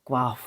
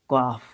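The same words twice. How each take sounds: The two takes are said the same way.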